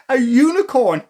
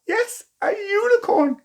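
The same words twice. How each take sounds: First: Said in the usual way. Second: "Yes, a unicorn" squealed high with delight; delighted wonder. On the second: A narrator's reading. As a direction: gush over it like a thrilled child.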